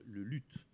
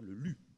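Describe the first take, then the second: First: The word ends with an audible t sound. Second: The word ends on the vowel, no t sound. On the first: The speaker calls it wrong. "Il ne faut pas dire le luth" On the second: The speaker calls it right. "Il faut dire le lu. C'est une question de prononciation ancienne"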